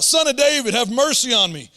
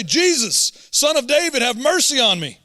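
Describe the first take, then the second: First: Loud pleading cry, higher; yelled plea. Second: Raised, pleading call, louder; crying out for help. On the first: Retold or imitated. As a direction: shout it for mercy. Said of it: "This is what he yelled out". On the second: A narrator's reading. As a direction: call out to Jesus desperately. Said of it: "he began to cry out and say".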